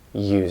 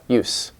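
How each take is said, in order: First: The final consonant is a voiced z sound. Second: The final consonant is a voiceless s sound. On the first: It is used as a verb. "it's voiced. This does sound like, like a Z" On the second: It is used as a noun. "Use is a noun. ... voiceless"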